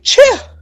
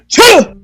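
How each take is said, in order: First: It is said in a lighter voice. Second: It is said with more chest voice.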